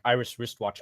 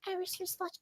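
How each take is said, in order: First: It is said at a lower, normal pitch. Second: It is said at a higher pitch.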